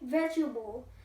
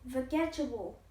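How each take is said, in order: First: The second-syllable vowel is dropped entirely. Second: The second-syllable vowel is clearly pronounced. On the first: The speaker calls it right. "We say vegetable. Don't say E here" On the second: The speaker calls it wrong. "We see a letter E, we will say vegetable, but it's incorrect"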